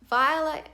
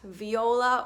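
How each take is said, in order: First: The name is said with two syllables. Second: The name is said with three syllables. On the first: The speaker calls it right. "pronounced with two syllables" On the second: The speaker calls it wrong. "not viola"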